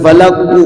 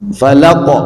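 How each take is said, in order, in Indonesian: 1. Kata ini berakhir dengan vokal u tambahan. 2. Kata ini berakhir dengan bunyi q yang berhenti. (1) "bukan falaku"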